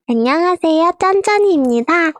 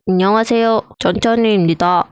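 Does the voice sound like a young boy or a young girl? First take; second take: young girl; young boy. First: It is said in a young girl's voice. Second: It is said in a young boy's voice. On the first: "여자아이" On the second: "남자아이"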